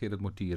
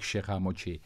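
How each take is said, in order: First: The name is pronounced with Dutch, Flemish sounds. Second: The name is pronounced with French sounds. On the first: This is the name's original Flemish form. "er hat eigentlich Gerrit Mortier, hoor. Aber was ist ein Flamand" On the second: This is the fancier form others use. "Aber die sagen natürlich sehr chic"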